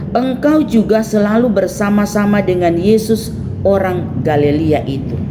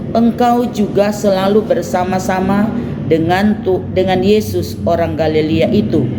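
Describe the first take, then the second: The two takes are said the same way.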